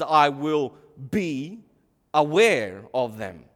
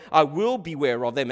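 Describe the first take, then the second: First: "be", a pause, then "aware of them"; slow "be ... aware", broken into two separate words; split BE AWARE. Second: Said in the usual way. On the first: Shown as a demonstration. Preacher mimicking a listener's misreading, "be ... aware" split apart.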